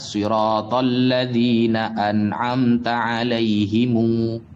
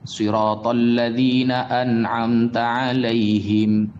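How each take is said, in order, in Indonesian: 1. Kata terakhir berakhir dengan tambahan vokal u. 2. Kata terakhir berakhir dengan bunyi m tertutup. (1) "di dalam kiroah yang lain dibaca" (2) "Di dalam Al-Quran ada"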